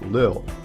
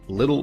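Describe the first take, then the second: First: The middle t is replaced or dropped. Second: The middle t is fully pronounced.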